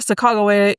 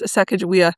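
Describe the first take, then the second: First: The name is said the less common way. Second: The name is said the common way. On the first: This is how a native speaker says it. "the way that I have heard it most recently pronounced by a native speaker" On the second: This is how most people say it. "The common pronunciation is Sacagawea"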